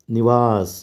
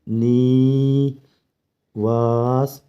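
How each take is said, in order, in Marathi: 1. पहिला स्वर ह्रस्व आणि झटपट आहे. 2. पहिला स्वर मुद्दाम दीर्घ केलेला आहे.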